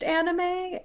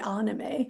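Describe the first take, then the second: First: The first A vowel is flattened. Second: The first A vowel is open, not flattened. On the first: The speaker calls it wrong. "my Midwestern accent is flattening that A" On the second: The speaker calls it right. "it should be anime"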